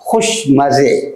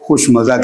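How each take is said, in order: First: The last word ends with an 'e' vowel. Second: The last word ends with an 'a' vowel. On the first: "लेकिन फ़ारसी लहजे में" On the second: "हम उर्दू में तो खुश मज़ा कहते हैं"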